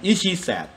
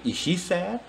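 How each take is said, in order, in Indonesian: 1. Suaranya tidak naik di akhir. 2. Suaranya naik di akhir. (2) "naik tone-nya ya di belakang"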